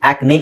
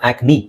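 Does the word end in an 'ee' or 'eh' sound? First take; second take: eh; ee. First: The word ends with an 'eh' vowel. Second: The word ends with an 'ee' vowel. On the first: The speaker calls it wrong. "ಆಕ್ನೆ ಅಲ್ಲ" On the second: The speaker calls it right. "ನಾವು ಇ ಅಂತಾನೆ ಹೇಳ್ಬೇಕು"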